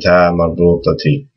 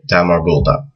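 First: The word ends with a t and i sound. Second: The word ends with a soft h sound. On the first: The speaker continues into a following word. "with the Kasrah" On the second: The speaker stops after this word. "if you just stop at the end of the word ... you won't pronounce this this mark"

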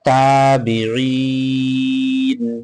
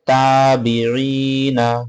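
First: The word ends on a consonant, with a long vowel. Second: The word ends on a final vowel. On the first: The reader stops at this word. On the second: The reading continues without stopping.

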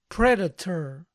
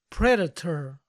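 Both takes have the same delivery.

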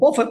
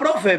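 First: The r after the p is dropped. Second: The r after the p is clearly pronounced. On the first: "Manuel dice" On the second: "pero sin acento como el de Manuel"

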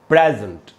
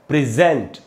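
First: The stress is on the first syllable. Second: The stress is on the second syllable. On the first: It is a noun or adjective meaning gift or present in a place. "जब ये noun या adjective होगा तो इसका उच्चारण होगा present" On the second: It is a verb meaning to give a gift. "जब ये वर्ब की तरह यूज करेंगे तो इसका उच्चारण होगा प्रेजेंट"

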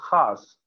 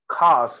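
First: The word begins with a raspy throat friction. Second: The word begins with an aspirated k stop. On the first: The speaker calls it right. "I would say khas" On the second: The speaker calls it wrong. "I wouldn't say khas"

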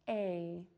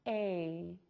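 First: The vowel is long and glides closed. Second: The same.

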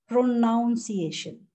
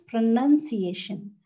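First: The second syllable is said as 'noun'. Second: The second syllable is said as 'nun'. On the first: The speaker calls it wrong. "which is incorrect" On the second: The speaker calls it right. "This is pronunciation"

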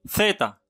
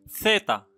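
Both takes have the same delivery.

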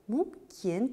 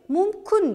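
First: The second vowel sounds like i. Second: The second vowel sounds like u. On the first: This is how the word is written. "mumkin tarzda yozilishi kerak" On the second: This is how people say it. "mumkin deyishadi talaffuz qilganimizda"

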